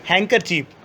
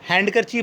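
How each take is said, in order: First: The d sound is left silent. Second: The d sound is clearly pronounced. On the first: The speaker calls it right. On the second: The speaker calls it wrong.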